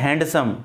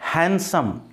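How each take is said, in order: First: A d sound is heard in the middle. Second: No d sound is heard in the middle. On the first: The speaker calls it wrong. "कई लोग क्या कहते हैं" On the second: The speaker calls it right. "डे की sound नहीं बोलना है"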